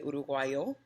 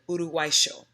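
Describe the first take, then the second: First: The y is sounded like an English y. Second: The y is sounded like an English sh. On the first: This is the common pronunciation. "most people are going to say Uruguayo" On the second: This is how people from the River Plate area say it. "So they're pronouncing the Y as an S H"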